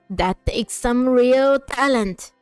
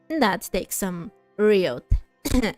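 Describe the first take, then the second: First: It is said in an old grandma voice. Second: It is said in the speaker's normal voice.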